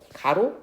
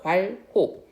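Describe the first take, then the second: First: The word is slurred to 'garo', dropping sounds. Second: The word is said clearly as 'gwalho'. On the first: The speaker calls it wrong. "가로? 아닙니다" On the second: The speaker calls it right. "괄호는 괄호라고 읽어요"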